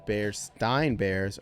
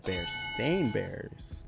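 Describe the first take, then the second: First: The second part rhymes with 'fine'. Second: The second part rhymes with 'rain'. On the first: The speaker calls it wrong. "people just mispronounced it" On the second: The speaker calls it right. "are actually the Bear-Stain Bears"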